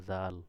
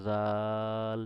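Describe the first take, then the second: First: Said in the usual way. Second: জাল stretched very slowly on a long vowel; drawn-out letter name. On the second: Shown as a demonstration. Teacher recalling the learned letter, জাল drawn out long. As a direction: hold the middle of জাল.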